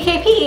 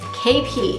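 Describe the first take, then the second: First: It is said in a happy, excited tone. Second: It is said in a displeased, negative tone. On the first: The speaker is glad to see someone. "I'd be like happy to see you and it would mean something awesome" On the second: Something bad has happened. "it's probably something bad"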